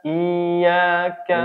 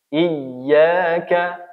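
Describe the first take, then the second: First: The vowel is drawn out without a sharp push. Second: The doubled y is pressed with a sharp push. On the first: The speaker calls it wrong. "dia baca tanpa nabr, seolah-olah menjadi mad" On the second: The speaker calls it right. "Yang harusnya iyyaka"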